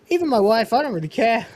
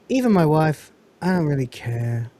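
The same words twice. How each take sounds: First: It is said in a light, ironic, playful tone. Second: It is said in a flat, low, downcast tone. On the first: The remark is meant as a joke. "it's not like he goes" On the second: The speaker truly does not care. "He goes"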